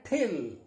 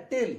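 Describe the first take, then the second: First: ठिल with a puff of air on the T; aspirated T. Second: टिल with an unaspirated T; टिल, dry Indian-style T; plain T. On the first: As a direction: till said as ठिल, breathy release of T. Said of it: "तो आप क्या पढ़ेंगे इसको?". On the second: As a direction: say टिल with no puff on the T. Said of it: "आप पढ़ने वाले हैं". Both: Shown as a demonstration.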